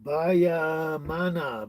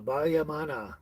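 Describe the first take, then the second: First: Bayamana sounded out very slowly, syllable by syllable; careful name attempt. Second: Bayamana said at normal speed, run together; quicker retry. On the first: Greeting a viewer, stretching out Bayamana slowly. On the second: Retrying a viewer's name, a quicker Bayamana. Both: Shown as a demonstration. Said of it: "That's the best I can do".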